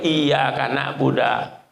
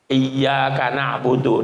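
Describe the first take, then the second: First: The last word ends with an 'a' vowel. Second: The last word ends with an 'u' vowel. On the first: The speaker calls it wrong. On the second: The speaker calls it right.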